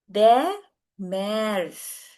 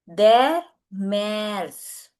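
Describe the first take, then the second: No difference in how they are said.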